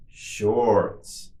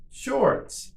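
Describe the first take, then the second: First: Drawn-out word for learners; slow model. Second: Much higher, shorter take; quicker model. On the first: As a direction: say it slowly and evenly for repetition. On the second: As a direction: say it quickly on a raised pitch. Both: Shown as a demonstration. Teacher models word for repetition.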